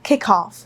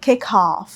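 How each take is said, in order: Both takes have the same delivery.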